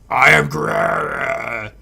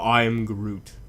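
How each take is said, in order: First: It is said in an angry, mad voice. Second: It is said in a calm, even voice. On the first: The character is angry. "when he's angry, he says it" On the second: The scene is calm. "the developers had him saying it calm"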